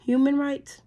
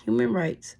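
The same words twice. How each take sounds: First: Can't believe what she just read; incredulous echo. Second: Said in the usual way. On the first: Real, not acted. Repeating the bill's words back in disbelief. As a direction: pitch jumps up in disbelief.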